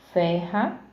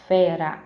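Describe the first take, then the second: First: "ferra" with a strong, h-like R; strong R, mistaken. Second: "fera" with a single tapped R; soft R, corrected. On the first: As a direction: say "ferra" with the R aspirated in the throat. ("ferra" com R forte, aspirado) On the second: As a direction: say "fera" with a light tongue-tap R, not aspirated. ("fera" com R brando, de uma batida) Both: Shown as a demonstration. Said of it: "não é ferra não".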